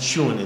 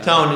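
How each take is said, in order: First: It is said with a British vowel, like tyoon. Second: It is said with an American vowel, like toon. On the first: "in the U K" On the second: "in American"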